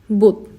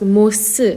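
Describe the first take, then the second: First: The word ends without an s sound. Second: The word ends with an s sound. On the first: The speaker calls it right. "it's pronounced as 못" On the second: The speaker calls it wrong. "we don't pronounce this as mos"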